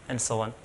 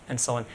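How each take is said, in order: No difference in how they are said.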